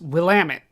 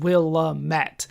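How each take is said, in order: First: It uses the local pronunciation. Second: It uses a non-local pronunciation. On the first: The speaker calls it right. "it is Willamette. That's how people say it" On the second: The speaker calls it wrong. "I always said Willamette"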